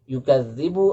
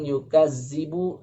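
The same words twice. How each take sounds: First: The middle consonant is a voiced 'th' sound. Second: The middle consonant is a plain 'z' sound. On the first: It means to deny as false. The speaker calls it right. "Yukadzibu artinya mendustakan" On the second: It means to belittle. The speaker calls it wrong. "Adapun yukadzibu artinya mengecilkan"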